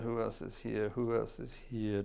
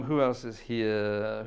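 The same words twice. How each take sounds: First: Said in the usual way. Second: Slow, put-on musing voice; drawn-out musing. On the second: Host musing to his chat, in a slow drawn voice. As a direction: stretch the words out in a voice.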